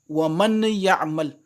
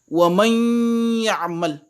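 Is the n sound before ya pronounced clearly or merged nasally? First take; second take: clear; merged. First: The n is pronounced clearly before the y. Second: The n merges into a nasal hum before y. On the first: The speaker calls it wrong. "Quand je lis cette phrase avec izhar" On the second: The speaker calls it right. "avec idgham ... le nun est remplacé par un son, c'est la gunna"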